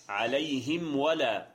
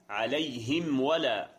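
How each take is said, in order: Both takes have the same delivery.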